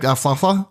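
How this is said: The name is said in a joking, playful way. The speaker calls it right. "when I joke around and be like"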